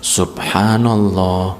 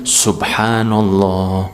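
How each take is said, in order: The two takes are said the same way.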